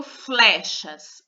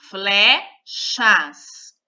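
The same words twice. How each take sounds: First: Said in the usual way. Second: Flechas split into fle and chas, louder; syllable by syllable. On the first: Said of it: "vamos olhar por palavra". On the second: Shown as a demonstration. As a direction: break Flechas into two separate beats. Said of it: "duas sílabas". (Flechas separando as sílabas)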